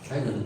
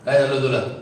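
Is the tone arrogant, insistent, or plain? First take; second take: plain; insistent. First: It is said in a plain, simple tone. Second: It is said insistently, pressing for an answer.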